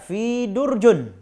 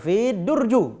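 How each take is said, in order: First: The noun ends with an -un sound. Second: The noun ends with an -u sound. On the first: "Jangan dibaca fi durjun" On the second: "atau fi durju"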